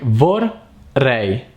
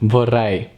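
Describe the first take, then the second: First: The word is broken into two separate parts. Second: The word is said quickly as one smooth unit. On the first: "try to split it like vorrei" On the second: "that's the right pronunciation"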